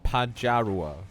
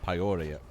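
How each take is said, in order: First: The J is pronounced as a consonant. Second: The J is left out entirely.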